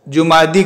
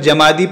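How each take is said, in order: First: It starts with 'ju' and ends with 'ee'. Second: It starts with 'ja' and ends with 'ee'. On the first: "कुछ जीम को ज़म्मा देते हैं लेकिन आखिर में जुमादी करते हैं" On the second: "कुछ जीम को फतहा देकर जमादी पढ़ते हैं"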